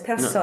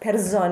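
First: The s is voiceless, sounding like s. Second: The s is voiced, sounding like z. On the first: The speaker calls it right. "it's personne" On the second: The speaker calls it wrong. "it's not personne"

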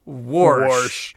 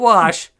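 First: The word is said with an added R sound. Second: The word is said without an R sound. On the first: "We put R in Wash" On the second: "Not wash"

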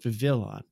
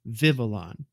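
First: The stress is on a later syllable. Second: The stress is on the first syllable. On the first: The speaker calls it wrong. "instead of" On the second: The speaker calls it right. "The first vowel is the high point"

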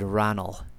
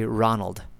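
First: The name ends without any d sound. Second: The name ends with a clear d sound. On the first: The speaker calls it right. "I said Ranald. I'm trying to maintain closer to the original Gaelic pronunciation. You don't have a D in Ranald" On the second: The speaker calls it wrong. "I did not say Ranald"

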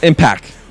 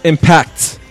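First: The final T sound is dropped. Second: The final T sound is clearly pronounced. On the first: The speaker calls it wrong. "Not Impact" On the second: The speaker calls it right. "It's Impact with a T"

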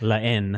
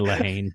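First: The title is pronounced the French way. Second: The title is pronounced the American way. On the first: "It's La Haine, I guess, in French" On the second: "I just say La Haine because I'm American"

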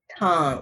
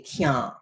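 First: The word starts with a plain k sound. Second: The word starts with a ky glide sound. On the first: The speaker calls it wrong. "We don't say tan" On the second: The speaker calls it right. "we say kyan"

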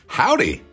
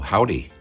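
First: It is said big and exuberantly. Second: It is said in a restrained, low-key way.

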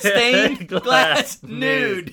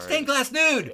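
First: The phrase is said slowly. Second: The phrase is said at a normal pace.

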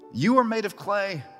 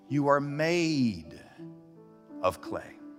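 First: The word clay carries the main stress. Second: The word made carries the main stress. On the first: The point is the material people come from. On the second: The point is that people were deliberately crafted.

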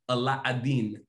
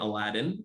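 First: It is said with a Middle Eastern accent. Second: It is said with a plain American accent.

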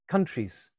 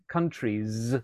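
First: The word ends with a voiceless S sound. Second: The word ends with a voiced Z sound. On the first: The speaker calls it wrong. "to S's" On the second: The speaker calls it right. "final Z sounds like countries"

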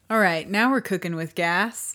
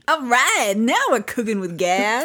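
First: It is said flatly, with little energy. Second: It is said with more energy and enthusiasm. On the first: The speaker calls it wrong. "you really said that with conviction" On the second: The speaker calls it right.

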